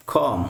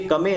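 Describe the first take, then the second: First: "कॉम" as one syllable; COME with silent E. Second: "कमे" with the final E sounded; wrong pronunciation of COME. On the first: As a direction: end "कॉम" on the m, no final vowel. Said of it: "ई का उच्चारण है वो बिल्कुल नहीं". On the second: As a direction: say COME as two syllables, "क-मे". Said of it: "ये कमे नहीं हो जाएगा". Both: Shown as a demonstration.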